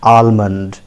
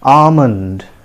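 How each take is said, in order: First: The L sound is clearly pronounced. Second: The L sound is left silent. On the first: The speaker calls it wrong. "many of us pronounce it in that way" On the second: The speaker calls it right. "L is silent here"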